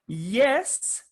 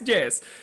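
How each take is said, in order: First: The word starts with a Y sound. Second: The word starts with a J sound. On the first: The speaker calls it right. "It's yes" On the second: The speaker calls it wrong. "which is incorrect"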